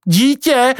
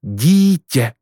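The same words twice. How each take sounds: First: High-pitched, incredulous question; surprised exclamation. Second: Said in the usual way. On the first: Acted. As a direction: cry out the word DÍTĚ in disbelief, much higher. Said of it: "zvolal Pako". (udivené, vysoké zvolání)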